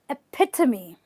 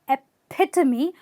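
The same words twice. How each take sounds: First: The second syllable is stressed. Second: The same.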